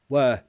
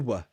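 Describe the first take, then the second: First: The vowel is said in its full form. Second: The vowel is reduced to a schwa.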